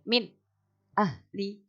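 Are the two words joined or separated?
separated. The two words are split by a break. The speaker calls it wrong. "itu kurang tepat"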